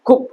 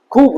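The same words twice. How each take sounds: First: "খুব" with a short u; short vowel. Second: "খুব" with the u stretched out; long vowel. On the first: Teacher giving the correct short u, short vowel. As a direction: keep the oo in "খুব" brief. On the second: Teacher showing how not to say it, long vowel. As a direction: drag the oo in "খুব". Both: Shown as a demonstration. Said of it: "খুব নয়".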